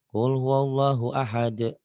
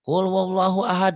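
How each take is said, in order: First: The final d ends with a short echoing bounce. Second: The final d ends flat without an echoing bounce. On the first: The speaker calls it right. "qalqalah kan harus ada" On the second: The speaker calls it wrong. "Itu qalqalah tuh pada nggak ada"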